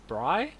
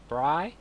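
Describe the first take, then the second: First: Bri? with a steep upward rise; rising question. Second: Bri? with a questioning rise. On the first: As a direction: pitch "Bri?" up sharply like a question. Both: Shown as a demonstration. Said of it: "It's like a question".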